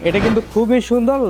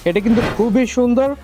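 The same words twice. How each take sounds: The two takes are said the same way.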